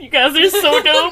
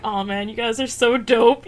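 First: Higher, louder, laughing praise; gushing, laughing. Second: Said in the usual way. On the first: Retold or imitated. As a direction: gush through a laugh.

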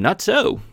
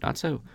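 First: God's "Not so." barked out high and loud as a flat refusal; loud exclamation. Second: "Not so." lifted high but said softer, pressing both words; emphatic. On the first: Acted. God answering Cain, loud high exclamation. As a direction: proclaim "Not so." like a thundering command. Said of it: "that's an exclamation point". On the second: Shown as a demonstration. Teacher explaining the Hebrew, quieter high emphatic "Not so.". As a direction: lean hard on "Not so." without raising the volume. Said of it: "kind of an emphatic".

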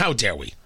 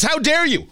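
First: A low, soft "How dare we?" thrown back in disbelief; incredulous echo. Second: A high, mocking "How dare you?", the "dare" pushed up and falling; parroting the accusers' outrage in a high voice; mocking the left. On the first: Retold or imitated. Host echoing the accusation back, low and disbelieving. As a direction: drop low and quiet, as if stunned. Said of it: "What do you mean". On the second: Host mocking activists' outrage, high and sneering. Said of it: "what these groups are saying is".

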